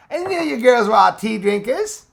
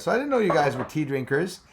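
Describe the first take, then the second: First: Higher, louder, playful teasing repeat; teasing girls. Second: Said in the usual way. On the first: Pretend. Teasing the girls in chat who drink tea, in a loud, high, playful voice.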